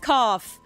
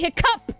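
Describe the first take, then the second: First: The second syllable sounds like cough. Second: The second syllable sounds like cup. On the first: The speaker calls it wrong. "We don't say hiccough" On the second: The speaker calls it right. "We say hiccup"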